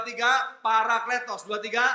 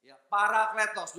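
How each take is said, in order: First: "parakletos" called out louder. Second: Said in the usual way. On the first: Shown as a demonstration. Preacher urging the church to repeat it louder. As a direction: lead the congregation, louder now. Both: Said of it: "Lebih keras lagi".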